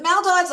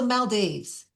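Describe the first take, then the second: First: Maldives ending like "dives"; MAL-dives variant. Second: Maldives ending like "deeves"; mal-DEEVES variant. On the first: Weighing up pronunciations for the audience, Maldives rhyming with "dives". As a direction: say Maldives with a long eye sound in the last syllable. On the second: Offering the audience the alternative pronunciation, Maldives rhyming with "leaves". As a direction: say Maldives with a long ee sound in the last syllable. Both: Shown as a demonstration. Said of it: "Is it Maldives or Maldives".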